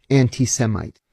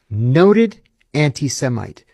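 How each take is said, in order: First: Said in the usual way. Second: "Noted anti-Semite" said slowly with weight on "Noted"; slow, pointed repeat. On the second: Shown as a demonstration.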